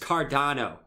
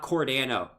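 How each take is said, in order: First: The first syllable sounds like 'car'. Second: The first syllable sounds like 'core'. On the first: The speaker calls it right. "it's Cardano" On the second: The speaker calls it wrong. "it's not Cordano"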